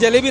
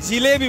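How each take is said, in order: First: The first syllable has an 'a' vowel. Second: The first syllable has an 'i' vowel. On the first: This is not the local way of saying it. "आपण जलेबी नाही" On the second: This is the local way of saying it. "आपण जिलेबी बोलतो"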